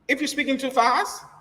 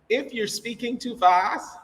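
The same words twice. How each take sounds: First: It is spoken quickly and hard to follow. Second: It is spoken slowly and clearly. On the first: The speaker calls it wrong. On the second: The speaker calls it right.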